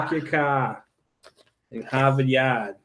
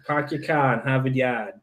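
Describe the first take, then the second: First: R-dropping Boston accent; park your car in Harvard Yard, Boston accent. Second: Thick Boston accent, no R's; car in Harvard Yard without R's, Boston accent. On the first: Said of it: "New Englanders drop R's". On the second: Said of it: "about as thick as I can get my Boston accent". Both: Shown as a demonstration.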